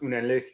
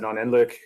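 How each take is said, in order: First: It is said with a German pronunciation. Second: It is said with an American pronunciation. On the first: "It's a German word. It's pronounced" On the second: "Since I am American, I pronounce it"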